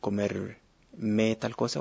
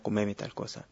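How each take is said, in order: First: The r of the verb is clearly pronounced. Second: The r of the verb is dropped. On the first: "En vez de decir" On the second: "la R del infinitivo cae"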